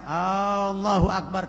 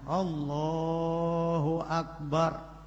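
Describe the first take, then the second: First: The first vowel of Allah is lengthened. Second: Only the vowel after L is lengthened. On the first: The speaker calls it wrong. "lafaz Allah alifnya tidak boleh dibaca panjang" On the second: The speaker calls it right. "Yang boleh dibaca panjang hanya huruf lamnya"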